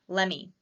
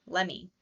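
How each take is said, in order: Both takes have the same delivery.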